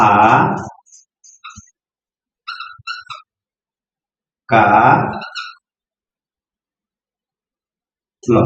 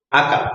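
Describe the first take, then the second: First: Each syllable sounded out alone with long pauses. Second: Said in the usual way. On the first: Shown as a demonstration. Teacher sounding out a word for a child, syllable by syllable. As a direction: break the word into slow separate syllables. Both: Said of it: "এবার বলো".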